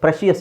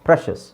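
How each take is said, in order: First: The ending is said as two syllables, shee-us. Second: The ending is said as one syllable, shus. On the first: The speaker calls it wrong. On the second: The speaker calls it right.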